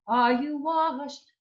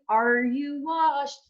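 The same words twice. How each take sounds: First: The R in 'are' is flipped or left out. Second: The R in 'are' is hard and clearly sounded. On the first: The speaker calls it right. "the R is flipped or the R is just totally gone" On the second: The speaker calls it wrong. "we want to get rid of that hard R sound"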